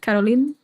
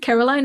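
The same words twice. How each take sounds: First: The name is said with a strong Dutch accent. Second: The name is said with an English-sounding accent.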